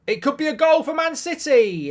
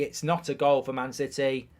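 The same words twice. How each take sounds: First: High, loud commentator burst; excited goal call. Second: Said in the usual way. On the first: Real, not acted. Streamer alerting viewers to a City chance, excited shout. Calling a possible live goal.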